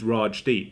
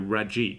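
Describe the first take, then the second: First: The name is said as two clear parts. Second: The name is run together, dropping the d. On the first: The speaker calls it right. "my full name is Raj Deep" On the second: The speaker calls it wrong. "people just weren't able to pronounce it, or they'll go Rajip"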